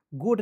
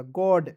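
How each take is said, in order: First: गुड with a rounded, closed vowel as in 'good'; wrong reading of god. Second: गॉड with an open 'aw' vowel; correct reading of god. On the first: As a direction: say गुड with closed lips-rounded vowel, not open 'aw'. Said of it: "गुड नहीं पढ़ लीजिएगा". (गुड, बंद गोल स्वर के साथ गलत उच्चारण) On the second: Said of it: "जी ओ D क्या पढ़ेंगे?". (गॉड, खुले 'ऑ' के साथ सही उच्चारण) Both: Shown as a demonstration.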